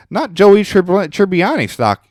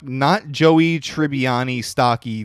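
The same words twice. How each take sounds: First: Trips over "Tribbiani" on the first read; a botched first read of "Tribbiani stock-"; stumbled first try. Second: "Tribbiani stocky" read very slowly, syllable by syllable; slow it right down and get "Joey Tribbiani" right; deliberate corrected reading of "stocky"; careful retry. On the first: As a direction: rushes "Joey Trib-" and breaks off mid-word. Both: Shown as a demonstration. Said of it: "the fuck?".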